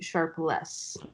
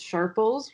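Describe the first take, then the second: First: The name ends with the word 'less'. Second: The name ends in a short 'puls' sound. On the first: This is how the family says the name. The speaker calls it right. "it's actually Sharpless. That is how you pronounce it" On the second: This is the reading people guess from the spelling. The speaker calls it wrong. "everybody thinks it's Sharples, which is because of how it's spelled"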